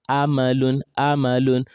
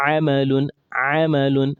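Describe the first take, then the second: First: Amalun said with a plain glottal Hamza instead of Ain; wrong Hamza sound. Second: Amalun with Ain squeezed from mid-throat; correct Ain sound. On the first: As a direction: show the mistake, Amalun with Hamza. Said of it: "A, it's coming from here". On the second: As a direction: show the right way, Amalun with a true Ain. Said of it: "it should come from here". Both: Shown as a demonstration.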